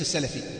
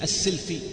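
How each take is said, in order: First: The first vowel is a, as salafi. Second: The first vowel is i, as silafi. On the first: The speaker calls it wrong. "وليس السلفي" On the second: The speaker calls it right. "فسمي السلفي"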